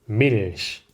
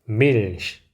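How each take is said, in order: Both takes have the same delivery.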